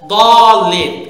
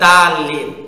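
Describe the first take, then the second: First: The first d sound is heavy and thick. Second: The first d sound is light and thin. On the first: The speaker calls it right. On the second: The speaker calls it wrong.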